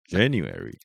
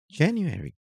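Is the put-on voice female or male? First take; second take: male; female. First: It is said in a put-on male voice. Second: It is said in a put-on female voice. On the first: "他们有男跟女的" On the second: "女的来一遍"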